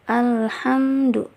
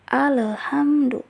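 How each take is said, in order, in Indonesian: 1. Bunyi L jelas, tetapi dibaca biasa. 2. Bunyi L dipantulkan dengan gema. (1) "seperti biasa saja, penting lamnya itu jelas" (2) "dibacanya itu dipantulkan, padahal tidak boleh dipantulkan"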